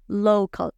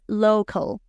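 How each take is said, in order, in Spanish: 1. La primera vocal se desliza como el nombre de la letra O. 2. La primera vocal se desliza como el nombre de la letra O.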